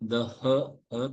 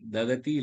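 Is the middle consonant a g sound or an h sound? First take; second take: h sound; g sound. First: The middle consonant is a breathy h from the throat. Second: The middle consonant sounds like a g. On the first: The speaker calls it right. "தொண்டையில" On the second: The speaker calls it wrong. "இல்ல"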